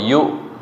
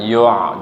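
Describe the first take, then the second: First: The consonant is a light glottal stop. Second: The consonant is a throaty ain sound. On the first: The speaker calls it right. "tapi yu. Ya biasa kayak direm" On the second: The speaker calls it wrong. "jangan yu', jangan ain ya"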